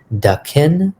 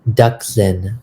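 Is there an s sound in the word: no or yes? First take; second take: no; yes. First: The word is said without an s sound. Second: The word is said with an s sound. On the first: This is the Trinidad Hindustani form. "there's that S in the Hindi that you take out in the Hindustani" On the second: This is the standard Hindi form. "there's that S in the Hindi"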